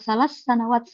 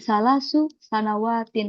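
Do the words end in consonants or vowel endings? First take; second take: consonants; vowel endings. First: The words drop their endings and close on consonants. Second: The words keep their final case vowel endings. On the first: "kita sukun aja nggak apa-apa" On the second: "versi domahnya"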